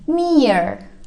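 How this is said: It is said with an r sound at the end. "kalau untuk Americannya uh, R-nya dijelaskan"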